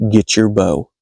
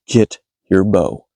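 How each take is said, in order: First: Said in the usual way. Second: Low and drawn out, word by word; measured, insistent low command; slow, deliberate repeat. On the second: Retold or imitated. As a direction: repeat the order slowly in a low voice. Repeats order after companion asks what.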